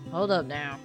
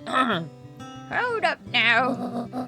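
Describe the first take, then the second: First: It is said in the speaker's natural voice. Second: It is said in a put-on elderly woman's voice.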